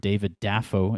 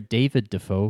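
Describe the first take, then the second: First: The stress is on the first syllable of Dafoe. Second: The stress is on the second syllable of Dafoe.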